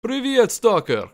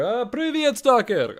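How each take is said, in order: First: Put-on high, loud, slow Stalker greeting in a thick Eastern European accent. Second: Put-on very high, loud Stalker greeting in an Eastern European accent; Stalker impression. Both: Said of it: "But I can emulate Stalker".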